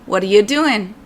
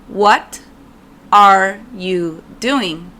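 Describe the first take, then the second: First: The words run together in connected speech. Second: Each word is said separately and clearly.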